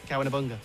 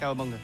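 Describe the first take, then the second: First: The word is said at a moderate speed. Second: The word is said very fast. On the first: "Say it quickly"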